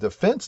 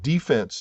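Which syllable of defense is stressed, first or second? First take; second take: second; first. First: The stress is on the second syllable. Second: The stress is on the first syllable. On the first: It is the government department. "the emphasis is on the second syllable, not the first one" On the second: It is the football term. "The accent there is on the first syllable"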